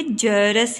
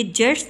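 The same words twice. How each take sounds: First: जरस in two syllables, ja-ras; correct pronunciation. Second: जर्स as one syllable, r into s; wrong pronunciation. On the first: Teacher corrects learners, जरस pronounced with two short vowels. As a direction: sound a clear vowel after r in जरस. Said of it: "नहीं बल्कि जरस है". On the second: Teacher rejects the misreading, जर्स said as one syllable. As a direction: misread जर्स with no vowel after r. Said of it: "ये जर्स नहीं बल्कि". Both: Shown as a demonstration.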